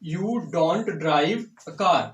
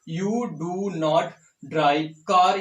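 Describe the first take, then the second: First: 'Do not' is joined into one contracted word. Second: 'Do not' is said as two full words.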